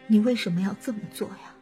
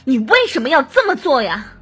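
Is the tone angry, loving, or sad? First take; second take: sad; angry. First: The voice is slow, weak and trembling. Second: The voice is tight, forceful and pressed. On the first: The speaker feels grief. "最后我们再来试试悲伤的情感" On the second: The speaker feels hatred and rage. "我们再来试试恨的情感"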